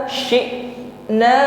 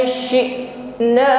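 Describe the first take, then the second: No difference in how they are said.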